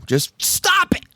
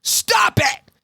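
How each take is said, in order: First: Drawn-out, raised STOP IT; emphatic stop. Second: High, explosive shout; hitting her with it. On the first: Psychiatrist advising buried-alive patient, emphatic raised command. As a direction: lean hard and slow on the command. Retold advice, milder repeat of shout. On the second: Psychiatrist cutting off patient's what-ifs, high explosive shout. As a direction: cut her off with a yell. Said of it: "Bob just hits her with". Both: Retold or imitated.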